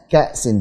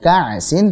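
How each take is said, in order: First: The glottal stop is pronounced clearly. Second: The glottal stop is weak or blurred. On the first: The speaker calls it right. "hamzahnya jelaskan" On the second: The speaker calls it wrong.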